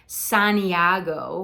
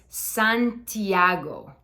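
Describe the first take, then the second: First: The t is softened in an American English way. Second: The t is crisp in a Spanish way. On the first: The speaker calls it wrong. "like we would do in English, in American English, dropping the T" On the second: The speaker calls it right. "It's Santiago"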